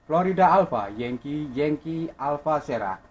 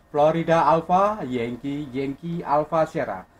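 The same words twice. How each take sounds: The two takes are said the same way.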